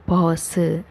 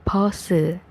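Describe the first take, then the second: Both takes have the same delivery.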